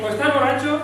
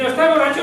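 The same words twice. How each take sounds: First: Said in the usual way. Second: Louder reading. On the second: Retold or imitated. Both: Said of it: "yo lo leí, ¿eh?".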